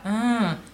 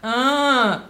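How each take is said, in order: First: It is a groan at normal volume. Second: It is a groan louder than normal.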